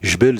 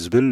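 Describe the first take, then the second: First: The word begins with a 'j' sound. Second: The word begins with a 'z' sound. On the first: "le J devient Z des fois" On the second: "le J devient Z des fois"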